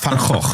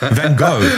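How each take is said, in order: First: It is said the Dutch way, with a guttural sound. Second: It is said the American way, without a guttural sound.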